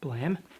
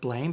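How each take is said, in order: First: The vowel is short, like in 'ham'. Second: The vowel is long, like in 'name'. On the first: The speaker calls it right. "it's called Blam" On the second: The speaker calls it wrong. "I call it Blame because it's spelt like blame"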